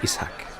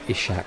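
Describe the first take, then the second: First: The s and h are separate, with a break. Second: The s and h blend into one sh sound. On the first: The speaker calls it right. "it's I S, and then there's like a pause, and then the H A Q is a separate sound" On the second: The speaker calls it wrong. "you're used to hearing people saying Ishak. It's it's that S H"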